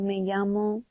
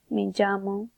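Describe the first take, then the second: First: Llamo begins with a y sound. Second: Llamo begins with a j sound. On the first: "It will be a y" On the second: "a j"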